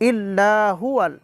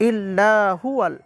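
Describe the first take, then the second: The two takes are said the same way.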